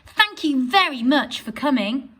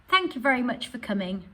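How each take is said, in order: First: It is said with excitement and surprise. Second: It is said plainly, without excitement.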